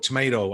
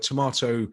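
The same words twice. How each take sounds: First: It is said with an American pronunciation. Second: It is said with a British pronunciation.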